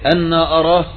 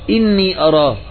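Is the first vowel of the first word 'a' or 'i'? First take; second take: a; i. First: The first word starts with an 'a' vowel. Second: The first word starts with an 'i' vowel. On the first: It asks how he could see him. The speaker calls it right. "وفتح الهمزة في أنا وتشديد النون وفتحها" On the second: It states that he does see him. The speaker calls it wrong. "لو أنه بالهمزة المكسورة إني أراه"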